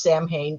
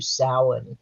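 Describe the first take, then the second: First: "Samhain" said as SAM-hayn; wrong pronunciation. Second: "Samhain" said as SOW-in; correct Gaelic pronunciation. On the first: Expert showing listeners the mistake, wrong pronunciation. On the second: Halloween expert naming her pet peeve, correct Gaelic pronunciation. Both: Shown as a demonstration. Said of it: "not pronounced Samhain".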